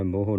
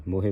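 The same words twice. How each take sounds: First: ਮੋਹ clipped, with no final e vowel; the incorrect ਮੋਹ, cut short as moh; wrong reading. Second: ਮੋਹੇ said with the full final e vowel; correct reading. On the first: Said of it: "ਮੋਹ ਨਹੀਂ ਪੜ੍ਹਨਾ". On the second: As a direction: say ਮੋਹੇ as mo-he, ending clearly on e. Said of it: "ਮੋਹੇ ਪੜ੍ਹਨਾ ਹੈ". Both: Shown as a demonstration.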